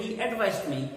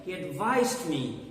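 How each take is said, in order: First: ADVISED wrongly stressed as AD-vised; first-syllable stress. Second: ADVISED slowed, stressed as ad-VISED; second-syllable stress. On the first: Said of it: "Don't say". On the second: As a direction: lean hard on VISED in ADVISED. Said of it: "the stress is on the second syllable". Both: Shown as a demonstration.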